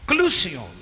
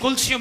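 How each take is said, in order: First: The word is said as ka-loo-si-yon. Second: The word is said as kul-si-yon. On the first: This is the actual pronunciation. "लेकिन कलूसियों इसका actual तलफ़ुज़ है" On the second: This is the commonly used form. "अगरचे हम इसे कुलसियों भी बोलते हैं, मुस्तमिल हो चुका है"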